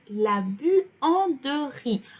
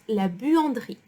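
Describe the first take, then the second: First: The middle vowel is fully pronounced, said slowly. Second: The middle vowel is nearly dropped, at normal speed.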